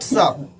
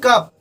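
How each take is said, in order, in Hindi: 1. इस शब्द की शुरुआत s की आवाज़ से होती है। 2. इस शब्द की शुरुआत k की आवाज़ से होती है। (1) "नॉट सप" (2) "कभी कभी क के तरह करते हैं"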